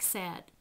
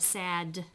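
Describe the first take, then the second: First: The final d is held without an audible release. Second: The final d is audibly released. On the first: This is how it sounds in casual conversation. "we actually don't release the end um, consonant" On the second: This is not how it sounds in casual conversation. "We don't go sad when we're in a conversation"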